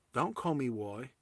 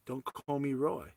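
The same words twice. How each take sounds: First: "Roy" said with a W, as "Woy"; soft "Roy" with W in place of R; mispronounced name. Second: "Roy" said with a clear R; soft "Roy" with R, not W; correct name. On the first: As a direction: mimic her "Roy", starting on W. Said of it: "she keeps saying the "why". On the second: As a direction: say "Roy" starting on R, falling at the end. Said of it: "my name is pronounced". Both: Retold or imitated.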